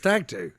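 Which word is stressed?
stag. The stress falls on the word stag. The speaker calls it right.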